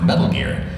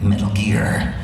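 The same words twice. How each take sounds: First: The stress falls on the word Metal. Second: The stress falls on the word Gear. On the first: The speaker calls it wrong. "you're not saying it right" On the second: The speaker calls it right. "the emphasis is on the gear"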